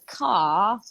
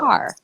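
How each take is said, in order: First: It is said in a British accent. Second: It is said in an American accent.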